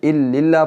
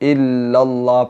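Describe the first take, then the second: First: The vowel after the first l is i. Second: The vowel after the first l is a. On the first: The speaker calls it wrong. "ज़ेर आ जाएगी। ज़ेर नहीं पढ़नी" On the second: The speaker calls it right. "यहाँ पर इल्लल्लाह पढ़ना है"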